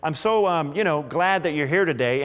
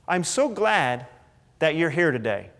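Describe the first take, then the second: First: It is said faster, with filler words. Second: It is said slower, without filler words.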